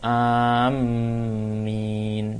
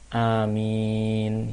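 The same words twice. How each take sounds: First: The m is doubled and held longer. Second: The m is single, after a long first vowel. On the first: The speaker calls it wrong. "amin dengan tasydid mimnya, itu juga salah" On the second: The speaker calls it right. "mimnya ini tidak ditasydid, sehingga kita baca amin"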